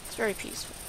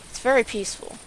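First: Very peaceful, breathed out unvoiced; whispered. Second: Said in the usual way. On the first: Shown as a demonstration. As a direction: whisper it softly and calmly. Repeats line, second whispered.

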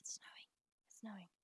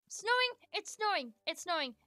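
First: Softer, lower murmur to herself; hushed contented murmur; quiet repeat. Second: Gasping, higher and much louder, thrilled; gleeful announcement of snow, winding down; excited cry. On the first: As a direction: say it under your breath, contentedly. Repeats snowing softly to herself. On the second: Sees snow start in game. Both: Real, not acted.

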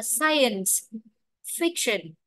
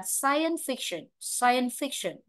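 First: "science", full final s, break, then "fiction"; separate words. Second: "science fiction" joined as "scien-fiction"; linked words. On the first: Teacher showing the unlinked reading, "science fiction" split by a pause. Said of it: "nếu đọc bình thường". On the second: Teacher showing students the easier way, "science fiction" linked. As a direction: run "science fiction" together, dropping the middle s. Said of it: "nhưng mà đọc nổi từ này". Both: Shown as a demonstration.

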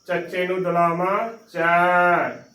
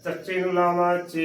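First: Final ਚੈ held with open ai sound; open AI vowel. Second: Final ਚੇ held with closed ay sound; closed E vowel. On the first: Teacher contrasting two vowel signs, ਚੈ with open ai. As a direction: end on a wide ai in ਚੈ. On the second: Teacher contrasting two vowel signs, ਚੇ with closed e. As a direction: end on narrow e in ਚੇ. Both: Shown as a demonstration. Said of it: "ਉਚਾਰਨ ਦੀ ਧੁਨੀ ਦੇ ਵਿੱਚ".

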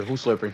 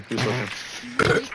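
First: Said in the usual way. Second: Slow, stretched Who's slurping with a rising end; mock-slow, exaggerated repeat; drawn-out repeat. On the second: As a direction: drag out every word of Who's slurping.

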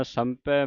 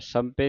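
First: ਸੰਪੈ ending in open ai. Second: ਸੰਪੇ ending in long e; closed e ending. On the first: Teacher modelling it for students, ਸੰਪੈ with final ai. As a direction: open the last vowel of ਸੰਪੈ to ai. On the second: Teacher showing students the mistake, ਸੰਪੇ with final e. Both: Shown as a demonstration. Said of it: "ਸੰਪੇ ਨਹੀਂ ਪੜ੍ਹ ਦੇਣਾ".

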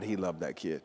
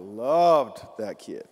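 First: Said in the usual way. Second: LOVED stretched out and punched louder; stress on LOVED. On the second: Real, not acted. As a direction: draw out and lean hard on "loved". Repeats to intensify the word loved.

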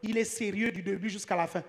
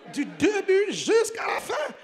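First: Said in the usual way. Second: DU DÉBUT JUSQU'À LA FIN stretched slow and high; mock-amazed echo. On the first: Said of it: "elle a dit". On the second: Real, not acted. Echoes her praise in mock amazement.

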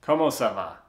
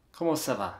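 First: French said in a plain American accent; "Comment ça va" with hard American vowels. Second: "Comment ça va" softer, in a put-on French accent; a careful French-style "Comment ça va". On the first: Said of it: "with my French with my American accent". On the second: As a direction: try "ça va" with rounded French vowels. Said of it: "with a more French type accent". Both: Shown as a demonstration.

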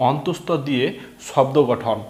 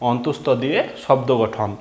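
Both takes have the same delivery.

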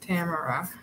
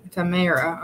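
First: Tamara said TAM-uh-ruh; first-syllable stress. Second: Tamara said tuh-MARE-uh; second-syllable stress. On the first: Reading a viewer's name the common way, Tamara as TAM-uh-ruh. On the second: Giving the viewer's name another way, Tamara as tuh-MARE-uh. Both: Shown as a demonstration. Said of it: "A lot of people pronounce it".

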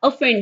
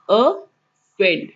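First: ऑफेंड with a short "uh" start, stress on FEND; correct pronunciation. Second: ऑफेंड stretched very slowly, uh-FEND; slow drawn-out model. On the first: Teacher correcting a common mispronunciation, carefully. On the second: Teacher repeating the word very slowly for students. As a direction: drag out each sound of ऑफेंड. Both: Shown as a demonstration. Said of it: "पर ये ऑफेंड नहीं, ऑफेंड है".

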